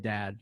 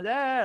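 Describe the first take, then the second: First: It is said calmly and softly. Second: It is said loudly and insistently.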